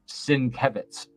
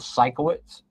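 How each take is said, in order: First: The middle of the name sounds like 'kev'. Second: The middle of the name sounds like 'ko'. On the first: The speaker calls it right. "but it's Sienkiewicz" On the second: The speaker calls it wrong. "For years, I called"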